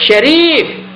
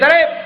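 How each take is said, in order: First: The name begins with an sh sound. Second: The name begins with a plain s sound. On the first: The name is said with its proper meaning. The speaker calls it right. "Dia kena sebut syarif, ha, baru betul" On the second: The name means going to excess. The speaker calls it wrong. "kalau tuan-tuan panggil nama, hey sarif, ha, melampau lah dia"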